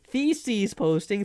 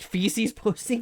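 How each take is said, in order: First: "Theses" with TH at the start; slow, emphatic "Theses", tongue-between-teeth TH; corrected pronunciation. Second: "Feces" said with an F at the start; drawn-out mock mishearing, "Feces" starting with F; misheard as feces. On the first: Shown as a demonstration. Correcting chat who heard feces, "Theses" with a careful TH. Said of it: "Not what I'm saying". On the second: Quoting chat's mishearing back, "Feces" with a clear F. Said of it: "not what I'm saying".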